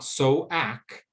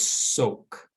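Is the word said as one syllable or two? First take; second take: two; one. First: Two syllables with the A sounded separately. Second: One syllable with a long O and silent A. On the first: The speaker calls it wrong. "not so-ack, because that A does not make a sound" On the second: The speaker calls it right. "This word is soak"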